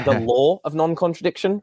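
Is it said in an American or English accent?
English. It is said in an English accent.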